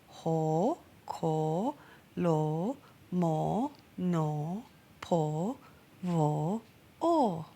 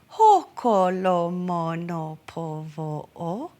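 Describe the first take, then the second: First: Each vowel is long. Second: Each vowel is short.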